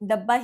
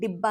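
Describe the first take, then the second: First: The first vowel sounds like 'a'. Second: The first vowel sounds like 'i'. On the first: The speaker calls it wrong. "हम में से भी कई लोग डब्बा ही use करते होंगे बोलने में" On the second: The speaker calls it right. "वो एक्चुअल में डिब्बा है"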